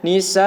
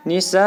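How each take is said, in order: First: "nisaa" held long, then a slightly pressed separate "a" at the end; pressed final A. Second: "Nisa" held long with no extra pressed "a"; unpressed ending. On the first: Teacher shows stopping on fathatain, pressed final A. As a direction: stretch "nisaa" and lean lightly on its final "a". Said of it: "ditekan sedikit". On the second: Teacher shows stopping on kasrotain, unpressed long ending. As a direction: let the long vowel of "Nisa" simply end. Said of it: "tidak perlu ditekan seperti itu". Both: Shown as a demonstration.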